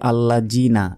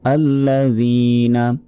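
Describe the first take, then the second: First: The middle consonant is a z sound. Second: The middle consonant is a th sound. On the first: The speaker calls it wrong. "আমরা অনেকে বলি আল্লাহ জিনা, এটা ভুল" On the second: The speaker calls it right. "জিহ্বা বের করে উচ্চারণ হবে এবং এক সেকেন্ড টান হবে"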